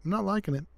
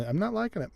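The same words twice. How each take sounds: First: I'm not liking it, tried a little higher; higher, character pitch. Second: Said in the usual way. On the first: Shown as a demonstration. Player retrying the line in a higher pitch. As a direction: test the line in a lifted voice.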